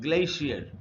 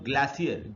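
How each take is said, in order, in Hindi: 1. इस शब्द का उच्चारण अमेरिकन है। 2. इस शब्द का उच्चारण ब्रिटिश है। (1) "अमेरिकन इंग्लिश में इसको बोलते हैं" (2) "ऐसा इसको ब्रिटिश इंग्लिश में बोलते हैं"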